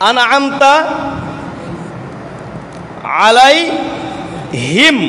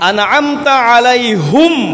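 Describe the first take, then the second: First: The last word ends with 'him', an 'i' vowel. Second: The last word ends with 'hum', a 'u' vowel. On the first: This is the usual reading. "আমরা পড়ি" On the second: This follows a different recognized reading tradition. "হায়ের উপরে পেশ দিয়ে পড়া আর একটা কেরাতের নিয়ম"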